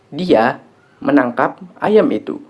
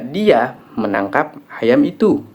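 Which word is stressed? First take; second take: menangkap; itu. First: The stress falls on the word 'menangkap'. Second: The stress falls on the word 'itu'. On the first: The action was catching, not slaughtering or something else. "Yang dilakukan adalah menangkap" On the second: It was that chicken that was caught, not this one. "Yang ditangkap adalah ayam itu, bukan ayam ini"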